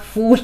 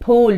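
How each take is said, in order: First: The word begins with an f sound. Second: The word begins with a breathy p sound. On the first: The speaker calls it wrong. "not fool. Fool is like the English fool" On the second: The speaker calls it right. "that's the proper pronunciation of it"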